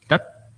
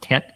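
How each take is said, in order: First: It is said with the tongue pulled further back. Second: It sounds like the plain English word tet. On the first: The speaker calls it right. "You have to pull back on your tongue to say it right" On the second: The speaker calls it wrong. "it's not tet"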